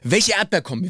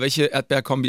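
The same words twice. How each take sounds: First: It is delivered with lively, passionate energy. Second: It is delivered in a calm, plain way. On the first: The speaker calls it right. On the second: The speaker calls it wrong.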